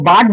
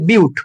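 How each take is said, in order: First: The vowel sounds like 'ah', as in 'but'. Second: The vowel sounds like 'yoo', as in 'byoot'. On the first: The speaker calls it wrong. "কেউ বাট বলবি না" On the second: The speaker calls it right. "এটাকে বলে বিউট, উচ্চারণটা এরকম হয়"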